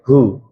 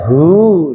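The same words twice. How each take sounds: First: The vowel in hu is short. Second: The vowel in hu is long. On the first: This is how it is read in ordinary Arabic. The speaker calls it right. "hu-nya kan pendek" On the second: This is how it is read in Quran recitation. The speaker calls it wrong. "tidak hu, tidak ngoten"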